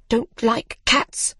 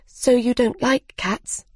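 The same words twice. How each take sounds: First: Slow, higher, offended echo; drawn-out indignant disbelief on "Don't like cats?"; indignant question. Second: Said in the usual way. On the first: A narrator's reading. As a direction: throw it back slowly as an affronted question. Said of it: "cried the mouse".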